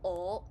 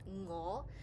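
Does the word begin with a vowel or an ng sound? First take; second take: vowel; ng sound. First: The word begins directly with the vowel. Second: The word begins with an ng sound. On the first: "lanyam, which means lazy sounds" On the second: "this takes a little effort to pronounce"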